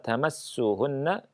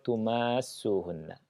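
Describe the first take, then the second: First: The vowel after the m is short. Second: The vowel after the m is long. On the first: The touching comes from the man. "Yang pertama" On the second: The touching is mutual between husband and wife. "Mimnya dipanjangkan"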